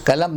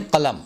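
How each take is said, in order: First: "कलम" with plain front k; everyday "कलम", k not q; common mispronunciation. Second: "कलम" with throaty q; careful Urdu "कलम" with back q; correct pronunciation. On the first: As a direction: say "कलम" as kalam. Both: Shown as a demonstration. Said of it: "कलम नहीं कलम".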